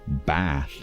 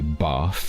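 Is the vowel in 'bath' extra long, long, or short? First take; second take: extra long; long. First: The vowel is a very drawn-out ah. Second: The vowel is a long ah sound. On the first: "that ah sound becomes elongated" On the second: "In my native accent"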